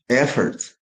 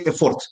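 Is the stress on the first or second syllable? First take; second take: first; second. First: The stress is on the first syllable. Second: The stress is on the second syllable. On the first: The speaker calls it right. "sound O becomes schwa" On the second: The speaker calls it wrong. "don't say effort. Effort sounds like something you can buy. I can afford it"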